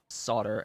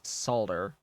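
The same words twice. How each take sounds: First: The word is said without an L sound. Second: The word is said with an L sound. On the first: The speaker calls it right. "we don't pronounce the L in solder" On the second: The speaker calls it wrong. "if you pronounce the L in solder as solder"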